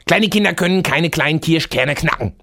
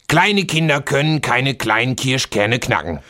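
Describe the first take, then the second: First: It is said fast. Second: It is said slowly.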